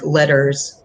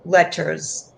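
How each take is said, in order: First: The middle consonant sounds like a D. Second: The middle consonant is a clear T sound. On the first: "with my accent, it would sound like letters, like with D's" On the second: "I'm pronouncing the T"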